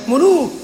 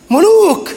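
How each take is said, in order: First: "ملوك" firmly set down, fairly level; measured first "ملوك"; emphatic repeat. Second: "ملوك" punched high; high, forceful "ملوك" for emphasis; heavy stress. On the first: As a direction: say "ملوك" firmly, without raising the voice. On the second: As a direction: raise the pitch sharply on "ملوك". Escalates the repeated word. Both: Real, not acted.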